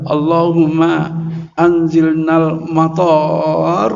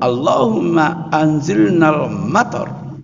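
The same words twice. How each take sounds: First: A vowel in the last word is drawn out long. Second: The vowels in the last word are kept short. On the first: It asks for a disaster instead of rain. The speaker calls it wrong. "lah kok dilafalkan" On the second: It asks for rain to fall. The speaker calls it right. "Mestinya kan"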